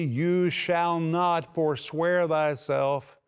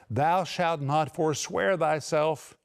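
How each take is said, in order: First: "You shall not forswear thyself" slow, each word weighted, "not" firm; preacher spells out the Greek, slow and emphatic; categorical, emphatic. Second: Said in the usual way. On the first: Shown as a demonstration. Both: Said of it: "It means categorically, emphatically".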